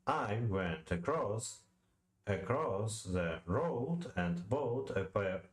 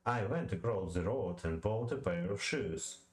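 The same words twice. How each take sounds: First: Slow, halting iambic beat, stressing went, -cross, road, bought, pair; metrical read-aloud. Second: Said in the usual way. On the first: Shown as a demonstration. Reader testing the line, slowly stressing every second syllable. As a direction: tap out "I went across" beat by beat. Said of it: "say the following line aloud". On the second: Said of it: "you will hear what I mean".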